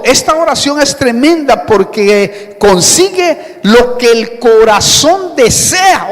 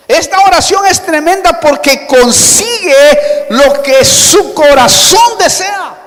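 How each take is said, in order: First: Said in the usual way. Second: Raised, high preacher's proclamation; emphatic repeat. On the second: Shown as a demonstration. Preacher repeats the promise to the congregation, emphatic and raised. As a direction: drive it home, pitched high and forceful.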